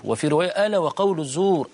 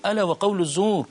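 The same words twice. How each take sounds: First: Said in the usual way. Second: ألا lifted high, the phrase driven home with a fall; preacher's emphatic echo; stressed repetition. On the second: Shown as a demonstration. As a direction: repeat ألا وقول الزور as an urgent warning. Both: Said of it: "وما زال يكررها".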